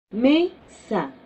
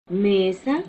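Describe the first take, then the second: First: "mesa" with a slightly lifted, falling first syllable ME; stress on first syllable. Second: Said in the usual way. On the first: Shown as a demonstration. Teacher stressing the first syllable of "mesa" for students. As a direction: lean on ME in "mesa", let it fall. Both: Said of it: "Que vemos es cama".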